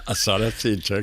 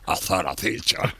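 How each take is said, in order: First: It is said in a Latin American Spanish accent. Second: It is said in a Castilian Spanish accent. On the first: This is how the author meant the title. The speaker calls it right. "Yo decía azar acecha" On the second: This is how someone else said the title. The speaker calls it wrong. "que es tan distinto de azar acecha"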